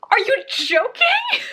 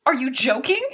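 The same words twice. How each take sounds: First: Much higher, slower, stretched disbelief; disbelieving cry. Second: Said in the usual way. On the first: Real, not acted. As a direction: cry it out in shock at the book. Shocked at book twist.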